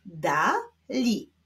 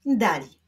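First: "Dali" as two detached syllables; separate syllables. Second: Said in the usual way. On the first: Shown as a demonstration. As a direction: leave a clear gap inside "Dali". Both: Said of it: "będziemy odczytywać połączenia".

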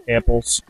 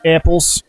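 First: Low-pitched murmured repeat; deep, quiet little echo; low, soft echo. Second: Said in the usual way. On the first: Real, not acted. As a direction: drop the word down low and soft. Names item twice, second take lower.

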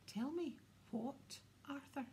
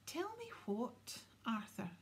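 First: Pointed demand. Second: High, slow, menacing demand; dangerous. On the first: Wife turning on her husband, pointed demand. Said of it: "her eyes snapped back to her husband". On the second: Wife pressing her evasive husband, dangerous voice. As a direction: repeat it as a drawn-out warning. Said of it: "in a dangerous sort of voice". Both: A narrator's reading.

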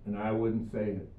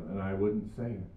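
The two takes are said the same way.

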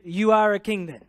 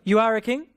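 First: "You are a king then" said flat and falling like a statement; "You are a king then" as a firm claim, no question lift. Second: "You are a king?" lifting at the end as a real question; rising question. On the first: Pastor showing the congregation Pilate's flat statement. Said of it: "he said a statement as a question". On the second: Pastor contrasting the English question reading with a rising tune. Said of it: "Do you see the difference?". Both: Shown as a demonstration.

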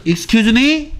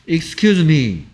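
First: "Excuse me?" higher, rising sharply on "me". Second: "Excuse me." slow, falling on "excuse". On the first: Teacher contrasts the questioning excuse me, rising. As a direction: ask "Excuse me?" as if you missed it. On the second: Teacher contrasts the polite excuse me, falling. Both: Shown as a demonstration. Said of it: "하고는 다르다고요".

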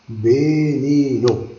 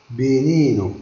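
First: Veneno stretched slowly, syllable by syllable; a slow classroom demo of Veneno; slow teaching demo. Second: Said in the usual way. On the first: Shown as a demonstration. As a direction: draw Veneno out slowly for learners. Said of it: "teacher repeating word slowly". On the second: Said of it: "teacher repeating word for class".

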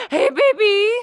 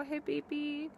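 First: Put-on a screaming, very high, very loud hey baby; shrieked greeting. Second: Said in the usual way. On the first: Greeting a girl across the room with a loud shriek. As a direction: shriek it out at full blast.

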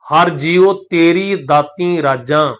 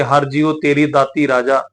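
First: Slow, deliberate line with nasalised ਰਾਜਾਂ; nasal-ending ਰਾਜਾਂ. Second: Quick reading, ਰਾਜਾ with no nasal; oral-ending ਰਾਜਾ. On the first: Teacher correcting the reading, slowly, nasal-ending ਰਾਜਾਂ. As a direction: stretch the words, end ਰਾਜਾਂ through the nose. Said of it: "ਸਹੀ ਨਹੀਂ ਬਣਨਗੇ". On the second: Teacher showing the misreading, ਰਾਜਾ without nasal ending. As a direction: end ਰਾਜਾ on an open, un-nasalised long aa. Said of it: "ਪਰ ਜੇ ਰਾਜਾ ਪੜ੍ਹ ਦਿਆਂਗੇ". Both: Shown as a demonstration.

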